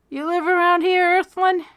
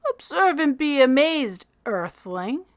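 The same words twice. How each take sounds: First: Playful mock address. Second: Grand announcement. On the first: Max teases Freak back. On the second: Freak shows off his bird. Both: A narrator's reading.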